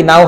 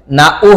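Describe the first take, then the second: First: নাও as one gliding syllable; joined vowels. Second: না উ as two separate syllables; separated vowels. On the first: Teacher offering the correct option, নাও joined up. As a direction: run the vowels of নাও together. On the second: Teacher offering the wrong option, না উ split. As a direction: hold না, then a separate উ. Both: Shown as a demonstration. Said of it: "না উ হবে নাকি নাও হবে?".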